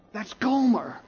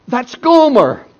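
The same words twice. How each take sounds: First: A hushed, dawning realization, voice pitched up; stunned hush. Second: High, loud cry of her name; anguished cry. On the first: Hosea stunned to spot his wife on the block, hushed. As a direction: whisper her name as it sinks in. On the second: Hosea crying out as his lost wife stands on the block, loud and high. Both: Acted.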